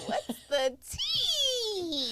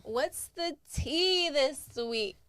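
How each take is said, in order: First: Very high, slow, laughing shout; crazy voice fluctuation. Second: Slow, drawn-out, high "What's the tea this week?"; signature podcast greeting. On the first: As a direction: squeal "What's the tea?" high and slow. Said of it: "That's my crazy voice fluctuation". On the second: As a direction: stretch out "tea" playfully. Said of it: "I love the way you say it". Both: Acted.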